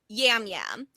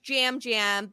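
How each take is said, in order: First: The name begins with a Y sound. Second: The name begins with a J sound. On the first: This matches how the name is written. "his name is spelled Yam Yam" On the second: This is how the name is actually said. "his name is pronounced Jam Jam"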